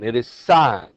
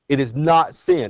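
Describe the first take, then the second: First: The word rhymes with line. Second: The word rhymes with pin. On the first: The speaker calls it right. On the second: The speaker calls it wrong. "don't call it sin"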